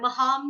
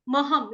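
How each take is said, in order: First: महाम with a long drawn aa; महाम stretched in the middle; wrong pronunciation. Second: महम said short, no long aa; महम with a short clipped a; correct pronunciation. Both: Shown as a demonstration. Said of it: "महाम नहीं है".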